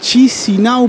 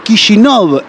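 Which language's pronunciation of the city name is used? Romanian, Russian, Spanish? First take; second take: Spanish; Russian. First: The name is said with a Spanish pronunciation. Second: The name is said with a Russian pronunciation. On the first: "podría llegar a ser el nombre en español" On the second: "Kishinov en ruso"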